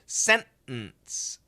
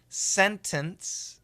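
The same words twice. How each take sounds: First: The middle T is a stopped sound. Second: The middle T is fully released. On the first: "a lot of people will do a stop sound" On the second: "Perfect pronunciation"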